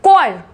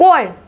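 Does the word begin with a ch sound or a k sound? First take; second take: k sound; k sound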